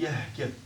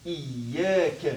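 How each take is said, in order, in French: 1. Le mot commence directement par 'ya', sans 'iyy'. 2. Le mot commence par un 'iyy' doublé et plein.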